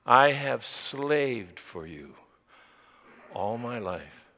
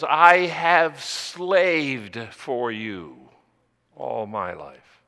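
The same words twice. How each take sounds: First: "slaved" repeated slowly and quietly, "all my life" sinking low; the preacher echoes the line softly so the verb stays with the listener; quieter repeat of slaved. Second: "slaved" drawn out and heavy, then "all my life" drops low; the resentful older son hammers "slaved" slowly; bitter stress on slaved. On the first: Shown as a demonstration. Preacher repeats the son's words to the congregation, hushed and slow. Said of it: "notice the verb he used". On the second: Acted. The older son complains to his father, lingering on "slaved". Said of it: "He says".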